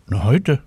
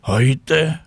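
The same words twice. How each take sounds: First: Lightly lifted, offhand reply; offhand answer. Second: Higher, incredulous echo; surprised exclamation. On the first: Cat answering when his birthday is, offhand rising reply. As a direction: toss the answer off with a rise. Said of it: "sagt Willi". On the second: Tina doubting the cat's birthday claim, higher surprised cry. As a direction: call it back in disbelief. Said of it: "rief Tina Luise". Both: A narrator's reading.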